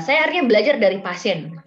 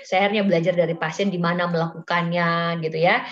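First: Louder, higher punch on akhirnya; amused, stressed admission; emphatic exclamation. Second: Said in the usual way. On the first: Real, not acted. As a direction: lean hard into "akhirnya". Exclaims, then repeats the phrase.

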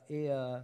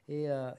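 No difference in how they are said.

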